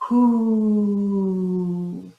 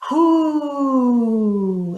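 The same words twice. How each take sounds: First: It is fuller with more breath behind it. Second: It is loud and confident with full breath. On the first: "that felt a little bit better and I had a little bit more air behind me" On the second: "now I don't even care how loud I am"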